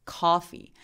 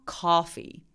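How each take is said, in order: The two takes are said the same way.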